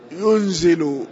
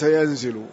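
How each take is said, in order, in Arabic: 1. المقطع الأول فيه حركة الضمة. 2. المقطع الأول فيه حركة الفتحة. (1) "ضبطه بضم أوله" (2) "وليس"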